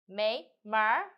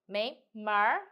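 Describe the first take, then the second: First: The second syllable ends with a curled-tongue r. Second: The second syllable ends with a curled-tongue r.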